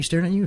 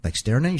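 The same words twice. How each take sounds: First: "you" rising high in disbelief; incredulous repeat. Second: Said in the usual way. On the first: Retold or imitated. Asking Eddie if the man was really staring at him, stress on "you".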